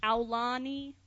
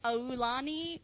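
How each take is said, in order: First: "Aulani" starting with "ow": ow-LAH-nee; "Aulani" with an OW at the front; second pronunciation option. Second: "Aulani" starting with a long "oh": oh-LAH-nee; "Aulani" with an OH at the front; first pronunciation option. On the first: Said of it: "or is it Aulani". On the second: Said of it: "So is it Aulani or is it". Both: Shown as a demonstration.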